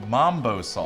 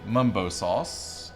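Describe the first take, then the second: First: The first vowel sounds like 'ah' in 'father'. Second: The first vowel sounds like 'uh' in 'cup'. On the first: This is how some other people say it. "some people say mambo sauce" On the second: This is how it was said where the speaker grew up. "I pronounce it mumbo sauce"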